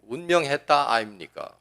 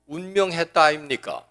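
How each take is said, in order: First: Gyeongsang dialect. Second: Gyeongsang lilt on "운명했다 아닙니까", falling at the end; Gyeongsang dialect. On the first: Pastor repeating the pretty Gyeongsang phrase, lightly imitated. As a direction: savor "운명했다 아닙니까" in Gyeongsang speech. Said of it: "경상도 말이 참 이뻐요". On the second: Pastor mimicking Gyeongsang folk for the congregation, light dialect. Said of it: "경상도에서는". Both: Retold or imitated.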